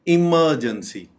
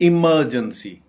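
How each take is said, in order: No difference in how they are said.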